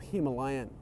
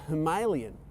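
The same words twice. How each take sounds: First: It is pronounced the usual English-speaking way. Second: It is pronounced the way Indian speakers say it.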